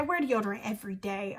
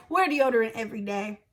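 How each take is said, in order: First: Lower, softer stern warning; quiet and serious. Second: Said in the usual way. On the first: Real, not acted. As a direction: drop the voice for a firm warning. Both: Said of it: "I'm not playing with y'all".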